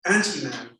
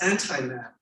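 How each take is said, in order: First: "anti-man" said with anti ending in a long ee, AN-tee-man; "anti-man" with ee, heard as before man. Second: "anti-man" said with anti rhyming with tie, AN-tie-man; "anti-man" with a long i, meaning against man. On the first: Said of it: "before man". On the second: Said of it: "against man". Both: Shown as a demonstration.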